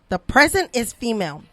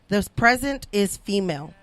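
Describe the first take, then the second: First: It is said with excited, exclamatory energy. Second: It is said in a flat, plain way.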